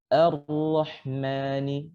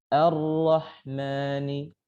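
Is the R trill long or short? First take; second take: short; short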